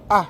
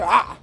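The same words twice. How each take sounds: First: A plain open vowel with a relaxed throat. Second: A vowel squeezed tightly in the throat. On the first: It is the ordinary French vowel. "ça c'est normal, c'est bien clair, on reconnaît ça en français" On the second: It is the sound of the letter just written. "c'est cette lettre-là que je viens d'écrire"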